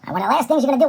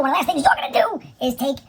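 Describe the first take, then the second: First: Said in the usual way. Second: Sudden unvoiced stage whisper. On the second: Shown as a demonstration. Host to viewers, repeating the step in a whisper. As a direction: drop into a secret whisper on the repeat.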